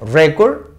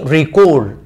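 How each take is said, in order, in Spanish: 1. El acento está en la primera sílaba. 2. El acento está en la segunda sílaba. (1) "que es un noun" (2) "que es un verbo"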